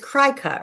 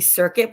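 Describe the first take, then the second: First: The word begins with a 'cry' sound. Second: The word begins with a 'sir' sound. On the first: The speaker calls it right. "it's cry cut, right?" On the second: The speaker calls it wrong. "I always want to say circuit, but it's not"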